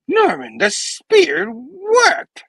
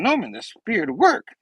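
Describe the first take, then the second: First: High, loud, drawn-out character voice; exaggerated high-pitched announcement; hammed-up exclamation. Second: Higher, lightly voiced earnest exclamation; mildly excited, more natural delivery; Peter. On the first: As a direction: stretch it out in a high theatrical cry. First take as Peter, then redone. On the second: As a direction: report it brightly without hamming it up. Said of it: "hold on. It's Peter going".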